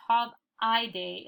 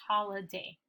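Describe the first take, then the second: First: Holiday as "hol-EYE-day", long middle I; wrong reading of holiday. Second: Holiday as "HOL-uh-day", weak middle vowel; natural reading of holiday. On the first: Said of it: "we don't say holiday". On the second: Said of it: "it's holiday". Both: Shown as a demonstration.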